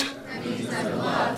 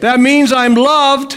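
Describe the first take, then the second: First: Said in the usual way. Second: Higher and louder, slow, for them to repeat; leading line. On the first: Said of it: "congregation echo". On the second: Shown as a demonstration. Preacher leading the congregation line by line, call and response. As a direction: lead the line out for an echo. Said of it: "call and response lead".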